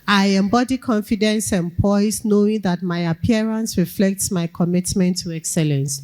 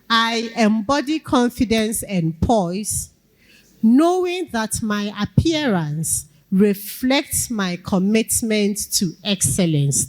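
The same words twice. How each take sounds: First: It runs on without a pause after poise. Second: There is a clear pause after poise.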